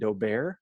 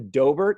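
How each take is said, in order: First: The name is given a French-style pronunciation. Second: The name is given a plain English pronunciation. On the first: "some get really fancy and call it Daubert because they are French" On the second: "But it's actually Dobert"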